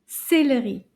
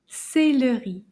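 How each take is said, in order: First: The word is said fast. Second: The word is said slowly.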